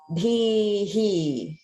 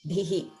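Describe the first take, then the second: First: The final syllable is prolonged with an echo. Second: The final syllable is short and clipped. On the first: "Because it's a dirgha, it's more like" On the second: "if it were short, like a hrasva I, it would just be like"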